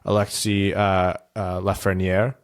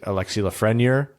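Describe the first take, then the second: First: The name is said with a French-style accent. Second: The name is said with an American-style accent. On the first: "it's still it's French and uses just like the accent, but in an opposite direction" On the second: "like someone from Middle America was saying a French name"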